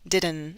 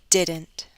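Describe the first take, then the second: First: The final T is left out entirely. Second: The final T is clearly released. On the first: The speaker calls it wrong. "If I drop the T, this would sound like didn't" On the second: The speaker calls it right. "I'll say it with a true T"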